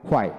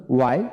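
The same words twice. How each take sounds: First: American why, with an h before the w; American-style why opening on a breathed h; American pronunciation. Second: British why, opening on a plain w; British-style why without an h; British pronunciation. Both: Shown as a demonstration. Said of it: "British American".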